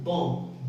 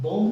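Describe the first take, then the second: First: बॉम्ब said "bom", lips closing on m; silent b. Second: बॉम्ब with a wrongly audible b at the end; final b sounded. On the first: Teacher confirming the class's answer, silent b. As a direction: end बॉम्ब on m with no b. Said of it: "क्या बोलेंगे?". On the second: Teacher warning students what not to say, final b sounded. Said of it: "बॉम्ब नहीं बोलेंगे". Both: Shown as a demonstration.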